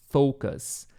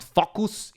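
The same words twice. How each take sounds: First: "focus" with a long OH, FOH-kus; "focus" modelled clearly, first vowel as in "go"; proper pronunciation. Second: "focus" said wrongly with a short first vowel, like FOCK-us; "focus" as the learner's error, FOCK-us; mispronounced. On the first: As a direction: say "focus" correctly with a gliding O. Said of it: "Remember the proper pronunciation here?". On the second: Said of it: "Remember the proper pronunciation here? It's not". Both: Shown as a demonstration.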